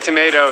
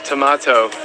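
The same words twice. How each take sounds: First: The word is said with an American pronunciation. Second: The word is said with a British pronunciation. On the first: "I say tomato" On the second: "they have British English here"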